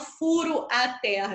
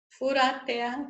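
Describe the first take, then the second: First: The o and a are said as separate vowels. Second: The vowels run together, sounding like fura. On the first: The speaker calls it wrong. "Eu não falo furo a terra" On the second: The speaker calls it right. "Repara quando eu falo rápido, eu falo fura"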